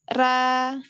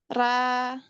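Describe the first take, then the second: Both takes have the same delivery.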